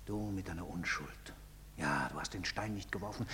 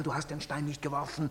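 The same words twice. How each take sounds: First: Low, soft and bitter; low bitter murmur. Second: Said in the usual way. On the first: Acted. Father bitterly quotes his son, low and soft. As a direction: mutter it back at him.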